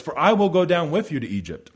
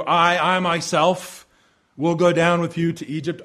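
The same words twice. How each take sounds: First: Said in the usual way. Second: I, I myself repeated and pressed hard; emphatic I. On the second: Shown as a demonstration. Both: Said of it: "And it's in the emphatic".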